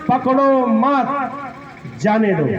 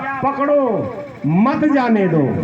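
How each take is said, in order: First: The pause comes right after 'मत'. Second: The pause comes right after 'पकड़ो'.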